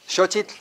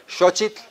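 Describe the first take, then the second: The two takes are said the same way.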